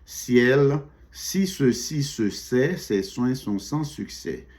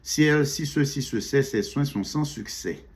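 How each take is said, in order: First: The sentence is said at a slower pace. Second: The sentence is said at a faster pace.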